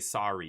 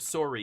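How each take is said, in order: First: The first vowel sounds like 'ah'. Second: The first vowel sounds like 'oh'. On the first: An American pronunciation. "You have to say the O like it's an A" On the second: A Canadian pronunciation. "instead of sorry"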